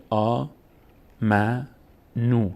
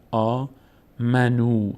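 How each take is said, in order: First: آ، م، نو with a break between syllables. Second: آ then منو run together as one piece; reading demonstration of آ، منو with منو joined; syllables joined. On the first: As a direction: sound out آ، م، نو one syllable at a time. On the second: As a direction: blend م and نو into منو, drawing out the final vowel. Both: Shown as a demonstration.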